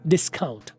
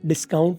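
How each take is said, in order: First: The first syllable is strongly stressed. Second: The first syllable is not clearly stressed. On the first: The speaker calls it right. "डिस सीन पर stress दें और count में सी की आवाज blast कर दें" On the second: The speaker calls it wrong. "Discount ना बोले"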